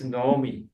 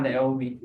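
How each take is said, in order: First: Naomi said as "no-oh-mee"; Hebrew pronunciation. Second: Naomi said as "nay-oh-mee"; wrong English pronunciation. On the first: Teacher explaining the Hebrew vowel rule, Hebrew pronunciation. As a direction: round the first vowel of Naomi to O. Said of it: "It also pronounced as O". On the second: Teacher rejecting the English reading, English pronunciation. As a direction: begin Naomi with an "ay" sound. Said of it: "So it's not Naomi". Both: Shown as a demonstration.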